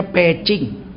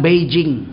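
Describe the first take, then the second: First: "Pecing" with P and ch sounds; Chinese-style pronunciation. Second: "Beijing" with a voiced B and J; local pronunciation. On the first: Preacher shows how the name is really read, Chinese-style pronunciation. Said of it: "sebetulnya bacanya Pecing". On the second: Preacher shows how locals say the city's name, local pronunciation. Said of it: "orang sini bilang Beijing". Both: Shown as a demonstration.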